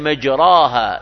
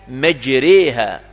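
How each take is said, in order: First: The middle long vowel is a plain open a sound. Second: The middle long vowel is tilted toward an e sound. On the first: "قرأ بعض القراء مجراها" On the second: "مجريها هذه فيها إمالة"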